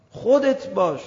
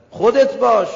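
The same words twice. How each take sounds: First: Said in the usual way. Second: Emphatic call. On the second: Acted. Preacher urging be yourself.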